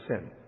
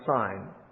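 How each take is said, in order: First: The vowel is short, rhyming with 'tin'. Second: The vowel is long, rhyming with 'line'. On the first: "we'd pronounce it sin" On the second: "it might be pronounced sign"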